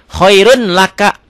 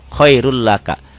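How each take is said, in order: First: The n sound is kept before the l. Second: The n sound merges into the following l. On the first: "Ditulisnya khairun laka" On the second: "dibacanya khairul laka. N-nya hilang"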